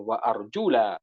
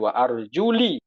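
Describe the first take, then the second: First: The vowel after the L is 'a'. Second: The vowel after the L is 'i'. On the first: "pakai fathah lamnya" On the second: "pakai kasrah"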